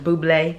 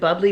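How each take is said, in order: First: It is said in a fancier way, following the spelling. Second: It is said like the everyday word bubbly. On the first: Someone else said it is pronounced this way. "Somebody told me it was pronounced [name]. That's like a little fancy for me" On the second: This is how the speaker normally says it. "maybe I pronounce it Bubbly"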